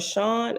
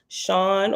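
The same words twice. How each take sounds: First: The vowel sounds like the one in 'own'. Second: The vowel sounds like the one in 'dawn'. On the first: "S H O N" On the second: "the first Sean is S H A W N"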